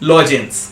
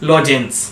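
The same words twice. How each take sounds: No difference in how they are said.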